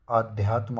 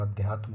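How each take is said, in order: First: आध्यात्म with long opening आ; wrong form. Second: अध्यात्म with short opening अ; correct form. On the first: Teacher showing the error, आध्यात्म with long aa. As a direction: say आध्यात्म as aa-dhyaatm. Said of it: "आध्यात्म नहीं होता". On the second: Teacher giving the correction, अध्यात्म with short a. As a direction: say अध्यात्म as a-dhyaatm. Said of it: "अध्यात्म होता है". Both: Shown as a demonstration.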